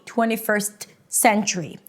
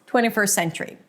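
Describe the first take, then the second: First: The T is pronounced, with a choppy break. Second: The T is dropped, with one long S. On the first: The speaker calls it wrong. "That's not how you want to say it" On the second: The speaker calls it right. "If you just pronounce it with one long S"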